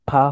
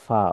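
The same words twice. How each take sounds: First: The first sound is made with both lips. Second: The first sound uses lower lip and upper teeth. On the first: The speaker calls it wrong. "দুই টুট লাগবে না, অর্থাৎ ফা হবে না।" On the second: The speaker calls it right. "নিচের ঠোঁটে আহ, সামনের উপরের দাঁতের মাথা"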